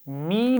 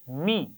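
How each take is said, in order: First: The vowel is drawn out long. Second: The syllable is said at a relaxed length. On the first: The speaker calls it wrong. "लंबा नहीं करेंगे" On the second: The speaker calls it right. "आराम से पढ़िए"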